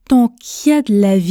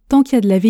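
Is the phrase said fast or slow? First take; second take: slow; fast. First: The phrase is spoken at a slow pace. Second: The phrase is spoken at a fast pace. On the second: "2 fois à la vitesse express"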